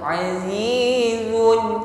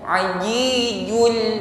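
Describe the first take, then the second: First: The z is weak with no hiss. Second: The z is pressed hard like a j. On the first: "Jangan diucapkan dengan lemah sehingga shafir atau bunyi desisnya hilang" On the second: "tekanan yang terlalu kuat sehingga bunyinya ajijul seperti jim"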